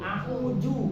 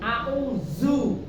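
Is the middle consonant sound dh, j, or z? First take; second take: j; z. First: The middle consonant is a j sound. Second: The middle consonant is a z sound. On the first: "apalagi ju" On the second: "bukan zu"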